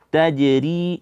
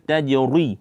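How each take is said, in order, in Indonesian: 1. Bunyi r ringan dan tipis. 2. Bunyi r berat dan tebal. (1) "ra di sini ti, tipis" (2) "jangan dibaca"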